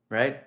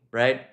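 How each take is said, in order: Both takes have the same delivery.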